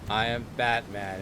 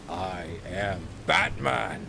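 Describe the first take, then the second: First: It is said in an ordinary speaking voice. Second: It is said in a deep, gravelly put-on voice. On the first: The speaker calls it wrong. "do the Batman voice" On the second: The speaker calls it right. "do the voice"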